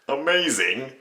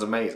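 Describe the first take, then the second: First: The word ends with a plain 'ing' sound. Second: The word ends with an 'een' sound. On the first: The speaker calls it wrong. "sounds kind of weird" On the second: The speaker calls it right. "sounds amazing"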